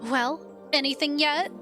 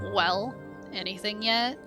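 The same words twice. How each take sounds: First: It is said in a lively, hopeful tone. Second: It is said in a flat, bored tone.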